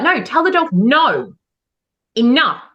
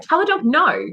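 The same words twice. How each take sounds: First: Firm no. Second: Raised pitch, light emphasis on "no"; lightly voiced trainer giving an order; trainer's instruction. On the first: Retold or imitated. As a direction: drive home "no" and "enough". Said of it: "It's okay to be firm". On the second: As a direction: instruct the handler plainly. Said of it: "the trainer will be like".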